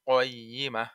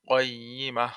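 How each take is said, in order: No difference in how they are said.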